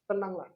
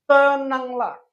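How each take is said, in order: First: Tenanglah said again much softer; soft echo. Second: Said in the usual way. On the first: Shown as a demonstration. Preacher softly repeating Tenanglah to the congregation. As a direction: let Tenanglah fall soft and low. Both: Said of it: "Yang pertama".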